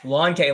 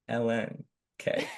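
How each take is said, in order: First: The symbol is said as one short word. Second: The symbol is spelled out as two letters. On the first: "You can call it lawn" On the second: "you can call it L N"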